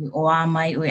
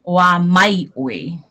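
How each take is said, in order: First: Even, smooth "Oa mai oi"; teacher showing the easy flowing way; mellow. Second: Very slow, mouthy "Oa mai oi" as if eating it; imitating the wrong, mushy take; mock mushy. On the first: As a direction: let "Oa mai oi" flow, relaxed. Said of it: "mellow, like". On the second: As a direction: say "Oa mai oi" slowly, as if chewing the words. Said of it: "like you're eating it". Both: Shown as a demonstration.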